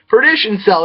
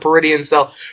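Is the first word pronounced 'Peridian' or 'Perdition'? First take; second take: Perdition; Peridian. First: The first word is pronounced like 'Perdition'. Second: The first word is pronounced like 'Peridian'. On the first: The speaker calls it right. "There we go. That's how you say it" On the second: The speaker calls it wrong. "I keep calling it Peridian Cell"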